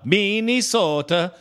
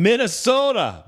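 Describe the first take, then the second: First: "Minnesota." stretched slow as "Minnie-sota" with a rising end; mock Minnesota accent. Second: Said in the usual way. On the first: Shown as a demonstration. Host teases the caller's home state, mock accent. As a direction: drawl "Minnesota." out slowly, lilting up at the end. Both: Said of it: "Just kidding, brother".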